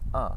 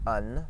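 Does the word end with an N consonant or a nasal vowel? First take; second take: nasal vowel; N consonant. First: The word ends in a nasal vowel, no N. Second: The word ends with a clear N consonant. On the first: The speaker calls it right. "you're not actually pronouncing the N. You're saying uh" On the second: The speaker calls it wrong. "You're not saying un"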